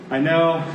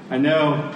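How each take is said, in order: Both takes have the same delivery.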